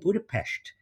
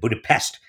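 First: The word ends with an sh sound. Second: The word ends with an s sound. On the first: This is the Hungarian way of saying it. The speaker calls it right. "my grandmother was Hungarian, and she always said Budapest" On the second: This is the common English way of saying it. The speaker calls it wrong. "And everybody else said Budapest"

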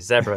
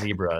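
First: Said the non-US way, first vowel as in 'bed'. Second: Said the US way, first vowel as in 'bee'.

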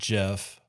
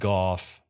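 First: The name begins with a soft J sound. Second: The name begins with a hard G sound. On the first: "Most people pronounce it Jeff" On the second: "I've also heard it pronounced Goff"

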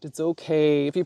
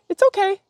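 First: The voice sounds relaxed and soothing. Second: The voice sounds tense and worried. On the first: Everything is truly fine. The speaker calls it right. "If you layer in the feeling, they know what you mean" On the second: Something is not really okay. The speaker calls it wrong. "that doesn't sound like everything's okay"

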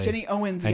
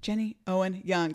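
First: The s sound comes after Owen. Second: The s sound comes after Young. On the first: The speaker calls it wrong. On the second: The speaker calls it right.

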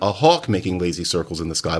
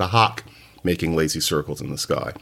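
First: The vowel in hawk is a rounded aw. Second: The vowel in hawk is an unrounded ah. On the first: "There isn't a hawk making lazy circles in the sky" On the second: "but a hawk making lazy circles in the sky"

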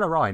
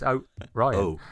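First: The name is said smoothly without a break. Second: A short pause splits the name after O. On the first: The ordinary name is meant. The speaker calls it wrong. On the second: The other name spelled with an apostrophe is meant. The speaker calls it right.

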